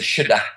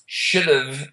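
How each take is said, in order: First: The words are reduced and joined together. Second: Both words are said fully and separately. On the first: This is the informal version. "Formal, informal is should have versus shoulda" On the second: This is the formal version. "Formal, informal is should have versus shoulda"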